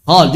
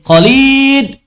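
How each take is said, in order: First: Khalid with a long "Khaa" vowel held over two beats; correct Arabic Khalid. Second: Khalid said as "Kholid", short first vowel, higher and louder; Indonesian-style Khalid. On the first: Teacher gives the correct Arabic pronunciation of Khalid. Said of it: "Yang tepat adalah". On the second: Teacher imitates how Indonesians call out the name Khalid. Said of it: "Orang Indonesia manggil Khalid apa?". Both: Shown as a demonstration.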